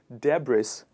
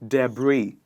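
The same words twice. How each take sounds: First: The final S sound is pronounced. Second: The final S sound is silent. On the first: The speaker calls it wrong. "people pronouncing the sound S with this word, which is where it goes wrong" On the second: The speaker calls it right. "we put the S sound in the silent mode here"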